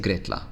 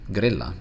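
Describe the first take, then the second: First: The double L is sounded like TL. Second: The double L is a plain L sound. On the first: The speaker calls it wrong. "we don't say gritla" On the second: The speaker calls it right. "notice, grilla"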